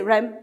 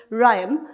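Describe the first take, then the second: First: "rhyme" said short, without prolonging it; short unstressed rhyme. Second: "rhyme" drawn out long to stress it; prolonged stress. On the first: Teacher showing students how not to stress, "rhyme" cut short. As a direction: say "rhyme" quickly and simply, then stop. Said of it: "cannot simply say rhyme and then squid". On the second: Teacher showing students what stress is, "rhyme" prolonged. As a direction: stretch the sound of "rhyme" slowly. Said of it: "it has to be prolonged". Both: Shown as a demonstration.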